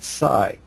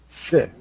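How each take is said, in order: First: The vowel is long, as in sigh. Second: The vowel is short, as in sit. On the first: "let's sound it psi" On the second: "as in sit"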